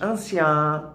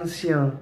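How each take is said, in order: First: The final nasal vowel is open. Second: The final nasal vowel is closed. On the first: The speaker calls it wrong. "todas essas palavras" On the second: The speaker calls it right. "é melhor pronunciar anciã neste caso"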